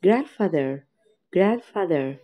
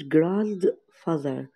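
First: Grandfather with the d swallowed, gran-father; silent d. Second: Grandfather said slowly with the d sounded out; d pronounced, wrong way. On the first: Teacher to kids, Grandfather with the d swallowed. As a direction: drop the d in Grandfather. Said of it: "حرف الدي ما تتنطقش". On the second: Teacher to kids, the wrong grandfather with the d sounded. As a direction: show the wrong way, grandfather with a clear d. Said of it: "ما قلتش grandfather". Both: Shown as a demonstration.

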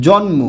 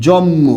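First: জন্ম as "jon-mo", with the n sounded; as written. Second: জন্ম as "jom-mo", n becomes m; everyday pronunciation. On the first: Teacher repeats what was written, sounding jon-mo. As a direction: say n and then m in জন্ম. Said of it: "কি লিখলাম বলুন তো?". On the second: Teacher shows how we often say it, as jom-mo. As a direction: double the m in জন্ম, no n sound. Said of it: "উচ্চারণ করি এরকম". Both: Shown as a demonstration.

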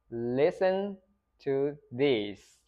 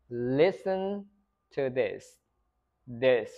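First: "this" said as "these", tense ee; long I. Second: "this" with a lax short I, in careful chunks. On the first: Teacher contrasting sentences for repetition, long I. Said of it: "giữa cái âm short I và". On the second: Teacher modelling a sentence for repetition, short I. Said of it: "Âm short I ở đây". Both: Shown as a demonstration.

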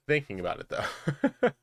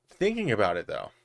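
First: Giggling, with a squeaky rising "though"; laughing. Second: Said in the usual way. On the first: Real, not acted. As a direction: laugh through it, jumping up high at the end. Repeats line laughing, squeaky end.

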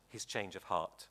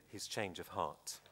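No difference in how they are said.

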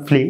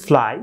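First: "ফ্লি" with an ee vowel; y read as ee in "ফ্লি"; mispronounced fly. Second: "ফ্লাই" ending in an "ai" glide; correct fly pronunciation. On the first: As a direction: say fly wrongly as flee. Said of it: "প্রথম দিকে বলেছিলাম". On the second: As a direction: model "ফ্লাই" as one syllable, flai. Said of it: "উচ্চারণ করতে হবে". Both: Shown as a demonstration.

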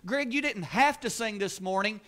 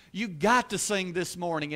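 First: "have" leaned on as the wrong attitude; light stress on "have" to Greg. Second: "got" leaned on as the glad privilege; light stress on "got" to Greg. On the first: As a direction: hit "have" to show the duty view. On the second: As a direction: hit "got" to show the gift view. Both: Shown as a demonstration. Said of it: "I get to do that thing".

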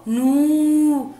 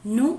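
First: "نو" held long as "nuuu"; long vowel. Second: Short "ن" said as a quick "nu"; short vowel. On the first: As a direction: stretch out the "u" in "نو". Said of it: "صوت طويل". ("نو" بصوت طويل ممدود) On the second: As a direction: cut the "u" on "ن" short. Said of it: "صوت قصير". ("ن" بصوت قصير مضموم) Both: Shown as a demonstration.

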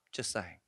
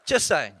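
First: "Just saying." dropped low and soft, almost under the breath; muttered aside. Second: "Just saying." punched out loud and firm; loud repeat. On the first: Preacher teasing the congregation with a quiet aside. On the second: Preacher repeating his jab loudly to the congregation. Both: Shown as a demonstration.

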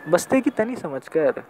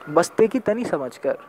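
Both takes have the same delivery.

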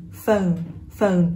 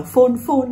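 First: "phone" with an o-to-u glide; English "phone" with gliding vowel; correct phone. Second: "phone" with a plain Vietnamese "ô", no glide; Vietnamese-style "phone", short pure vowel; mispronounced phone. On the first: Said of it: "nên là âm o". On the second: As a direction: say "phone" wrongly as flat "fôn". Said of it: "nó không phải là phone". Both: Shown as a demonstration.

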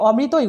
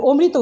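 First: অমৃতই with open "aw" first vowel; natural vowel. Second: অমৃত with closed "o" first vowel; rejected O form. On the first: Teacher confirming the correct form, অমৃতই with open aw. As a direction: say অমৃতই as "aw-mrito-i". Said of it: "অমৃতই উচ্চারণ করেছি". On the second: Teacher showing what was not said, অমৃত with closed o. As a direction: say অমৃত as "o-mrito". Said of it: "অমৃত উচ্চারণ করিনি". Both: Shown as a demonstration.

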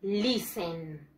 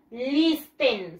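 First: Listen with silent T, "lissen"; low, falling "lissen", no t at all; correct pronunciation. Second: Listen with the T sounded, "lis-ten"; as spelled. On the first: Teacher gives the class the pronunciation, listen said "lissen". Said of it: "The pronunciation is". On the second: Teacher shows the class the spelling, listen said "lis-ten". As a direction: read listen as written, hard t in the middle. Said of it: "Se escribe listen". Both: Shown as a demonstration.

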